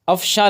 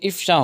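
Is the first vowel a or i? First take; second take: a; i. First: The first vowel is a. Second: The first vowel is i. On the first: The speaker calls it wrong. "लफ्ज़ नहीं होता" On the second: The speaker calls it right. "होता है"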